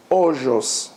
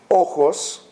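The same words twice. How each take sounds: First: "ojos" said OH-zhos; Ladino soft J. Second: "Ojos" said OH-khos; Spanish throaty J. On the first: Teacher showing Ladino word for eyes, "ojos" with ZH. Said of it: "in Ladino, the preservation". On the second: Teacher showing Spanish word for eyes, "Ojos" with KH. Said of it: "in Spanish is pronounced as a chet". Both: Shown as a demonstration.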